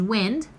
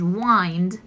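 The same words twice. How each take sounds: First: "wind" with short i, rhymes with pinned; wind as in air. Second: "wind" with long i, rhymes with kind; wind as in to turn. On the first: Teacher showing students the weather word, short-i "wind". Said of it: "de viento". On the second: Teacher showing students the turning verb, long-i "wind". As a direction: say "wind" like winding a clock, long i. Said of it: "wind de girar o enrollar". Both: Shown as a demonstration.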